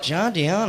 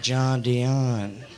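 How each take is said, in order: First: JOHN DION said higher and louder, as a puzzled question; disbelieving question. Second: JOHN DION said lower, as a drawn-out confirmation; confirming answer. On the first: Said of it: "They're like". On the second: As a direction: confirm "John Dion" without any surprise. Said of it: "I'm like". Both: Retold or imitated.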